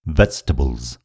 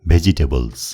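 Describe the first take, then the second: First: The middle vowel is dropped, giving fewer syllables. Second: Every syllable is spelled out, like ve-ji-te-bal. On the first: The speaker calls it right. "सही उच्चारण हो" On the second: The speaker calls it wrong. "यो शब्दको गलत उच्चारण हो"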